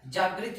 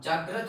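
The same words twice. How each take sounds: First: जागृत said with an i after ग्र, as the mistake; wrong form. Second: जागृत with a short neutral ə after ग्र; correct form. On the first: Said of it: "जागृत नहीं होता". (जागृत, गलत उच्चारण) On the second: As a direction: say जागृत the right way. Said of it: "जागृत होता है". (जागृत, सही उच्चारण) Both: Shown as a demonstration.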